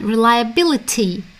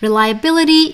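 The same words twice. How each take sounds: First: The word is said in a British accent. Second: The word is said in an American accent. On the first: "is British" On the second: "is the American pronunciation"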